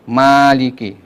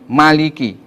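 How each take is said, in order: First: The vowel after the m is held long. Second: The vowel after the m is kept short. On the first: It means the one who owns or controls. "mimnya dibaca dengan mat" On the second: It means the king or the one who reigns. "mimnya dibaca tanpa mat, ya, pendek"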